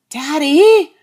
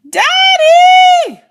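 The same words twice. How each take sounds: First: It is said a little louder. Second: It is yelled as loud as possible.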